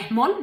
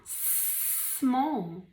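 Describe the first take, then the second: First: Small with an extra /h/ before it; breathy wrong small; small mal dicho. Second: Soft correct Small; Small correcto; right small. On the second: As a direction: clean Small with no extra sound. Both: Shown as a demonstration.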